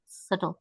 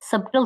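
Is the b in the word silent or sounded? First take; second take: silent; sounded. First: The b is silent in the word. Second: The b is sounded in the word. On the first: The speaker calls it right. "इसमें बी silent है" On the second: The speaker calls it wrong. "सबटल तो नहीं पढ़ते इसको"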